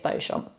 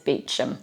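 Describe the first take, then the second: First: The name is said with French sounds. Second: The name is said with English sounds. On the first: The speaker calls it wrong. "you think that this would be pronounced the French way" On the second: The speaker calls it right. "no, it's Beauchamp"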